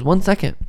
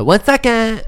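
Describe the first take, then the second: First: Put-on high little-girl voice, lightly done; toddler voice. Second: Put-on high, louder little-girl voice; toddler voice. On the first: Dad imitating his daughter telling mom to wait. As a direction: mimic the toddler copying her mom. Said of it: "she goes". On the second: Dad imitating his daughter copying mom's phrase. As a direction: chirp it like a tiny boss. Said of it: "And Elena said".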